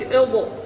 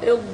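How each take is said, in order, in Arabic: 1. تُضاف حركة قصيرة بعد الحرف الأخير. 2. تنتهي الكلمة بوضوح على الحرف الأخير.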